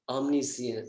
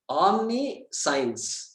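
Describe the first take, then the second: First: It is said with a British English accent. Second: It is said with an Indian English accent. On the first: "Then British" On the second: "Indian thing"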